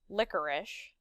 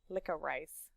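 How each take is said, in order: First: The word is said the usual, familiar way. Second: The last syllable is said like 'rice'.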